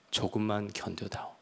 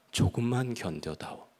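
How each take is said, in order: First: 조금만 견뎌다오 repeated softer, fading almost to a hush; God repeating his plea to Yubi, softer and fading. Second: God pleading with Yubi, 조금만 gently stressed; gentle plea. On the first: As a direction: let the repeat sink into a tender hush. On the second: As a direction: ask him to endure, 조금만 leaned on gently. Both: Retold or imitated. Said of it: "주님의 음성을 들은 거죠".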